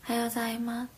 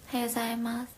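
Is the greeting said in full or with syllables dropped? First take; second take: dropped; dropped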